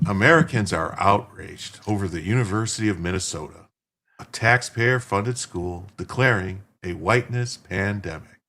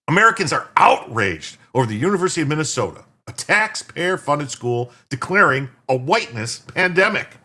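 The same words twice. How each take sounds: First: It is read softly, like a calm bedtime story. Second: It is read dramatically, like an outraged newscaster.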